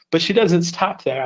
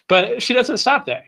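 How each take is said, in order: First: Salesy pitch with a falling punch on doesn't; infomercial voice. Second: Much higher, big salesy build to stop; hammed-up infomercial. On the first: Acted. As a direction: sell it like a TV ad. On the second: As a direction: go full TV pitchman. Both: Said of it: "I kinda sound like an infomercial there".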